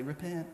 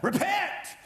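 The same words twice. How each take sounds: First: The word is said quietly and passively. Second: The word is yelled loudly.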